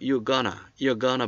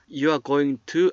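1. 단어들을 줄이고 이어서 붙여 말해요. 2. 단어들을 그대로, 줄이지 않고 말해요. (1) "You're gonna라고 그래" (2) "You are going to 안 하고"

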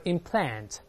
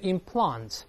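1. 这是用美式口音说的。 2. 这是用英式口音说的。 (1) "美国人读的implant，还是口型变大" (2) "在英国人读的implant"

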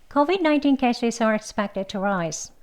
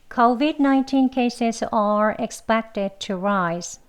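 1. 이 문장은 빠르게 말하고, 일부 단어를 약하게 발음합니다. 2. 이 문장은 천천히, 또박또박 발음합니다. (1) "다음은 좀 이제 빨리요. 약하게 expected라고 발음해 보겠습니다" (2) "천천히 두 번 같이 해볼게요"

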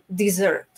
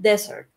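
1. El acento está en la última sílaba. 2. El acento está en la primera sílaba. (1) "cuando hablamos de postre, lo estamos poniendo ... en la última sílaba" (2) "ya estamos poniendo nuestro énfasis en la primera sílaba"

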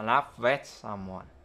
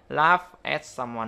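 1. 'Laugh' kết thúc bằng âm v có rung. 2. 'Laugh' kết thúc bằng âm f không rung. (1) "mà laugh at someone" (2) "không phải laugh at someone nữa"

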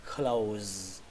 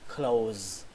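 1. Từ này kết thúc bằng âm z rung. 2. Từ này kết thúc bằng âm z rung.

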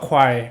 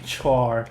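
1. คำนี้ขึ้นต้นด้วยเสียง kw เหมือน kwire 2. คำนี้ขึ้นต้นด้วยเสียง ch เหมือน chore (1) "เขาอ่านว่าควายนะครับ" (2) "แต่ว่าหลายๆคนอาจจะอ่านว่า"

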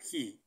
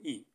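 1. この単語は、はっきりしたhの音で始まります。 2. この単語は、hの音なしで始まります。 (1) "he って習ったじゃないですか" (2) "he のh は発音しないから"

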